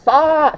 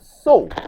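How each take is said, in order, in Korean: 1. 미국식의 열린 평순 모음으로 발음합니다. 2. 영국식의 강하게 원순화된 모음으로 발음합니다. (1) "미국식 발음으로는 싸, 싸에 가깝게 발음을 하죠" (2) "영국식 발음은 so라고 하죠. 오를 되게 강하게 발음합니다"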